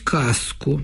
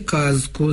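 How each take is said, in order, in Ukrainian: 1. Перед к з оглушується і стає с. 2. Перед к з залишається дзвінким. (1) "Дуже ріже вухо" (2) "дзвінки приголосні, ніколи не оглушуються"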